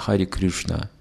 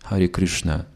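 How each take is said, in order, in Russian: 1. Кришна произносится с гласным в орийском стиле. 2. Кришна произносится с гласным в орийском стиле.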